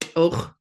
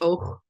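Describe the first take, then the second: First: The final sound of the word is clear. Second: The final sound of the word is weak. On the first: The speaker calls it right. "Let me try that again" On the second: The speaker calls it wrong. "I got lazy on the and the end of that one"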